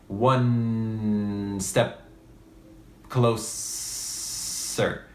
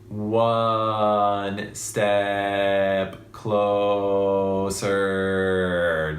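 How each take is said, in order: First: The consonants are held longer than the vowels. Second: The vowels are held longer than the consonants.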